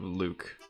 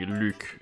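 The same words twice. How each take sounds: First: The name has an English pronunciation. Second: The name has a French pronunciation. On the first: The speaker calls it wrong. "Luke's the English version" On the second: The speaker calls it right. "I actually probably sh should be saying"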